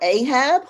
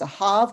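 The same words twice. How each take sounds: First: The name is said with an English pronunciation. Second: The name is said with a Hebrew pronunciation. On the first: "which is how we say it in English" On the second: "which is how you would say it in Hebrew"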